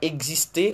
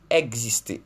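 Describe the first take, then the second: First: The first vowel is not an open 'è' sound. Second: The first vowel is an open 'è' sound. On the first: The speaker calls it wrong. "On ne dit pas" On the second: The speaker calls it right. "on dit"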